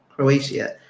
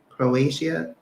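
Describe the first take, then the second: First: It has a Portuguese-style pronunciation. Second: The same.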